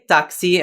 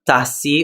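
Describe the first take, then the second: First: The middle consonant sounds like ks. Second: The middle consonant sounds like s. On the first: The speaker calls it right. "This is why we say taxi" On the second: The speaker calls it wrong. "and not tassi"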